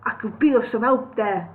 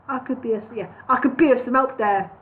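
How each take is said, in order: First: The thrush voice, a second try; retry of the bird voice. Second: Bird voice, final take. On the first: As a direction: rework the bird's line. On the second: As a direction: settle into the bird's voice. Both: Shown as a demonstration. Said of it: "let me try and get it right".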